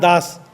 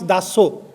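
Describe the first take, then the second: First: The name ends on the consonant, no vowel. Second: The name ends with an added final vowel. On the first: This is how speakers outside Odisha say the name. "not Das" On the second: This is how Odia speakers say the name. "we Odia people we pronounce Daso"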